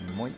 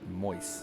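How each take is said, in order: First: The final s sound is silent. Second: The final s sound is pronounced.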